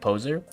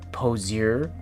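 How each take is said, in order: First: No extra sound comes before the last syllable. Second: An extra 'ee' sound comes before the last syllable. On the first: This is the usual way of saying it. "instead of poser" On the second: This is a character's odd way of saying it. "the way he says poser"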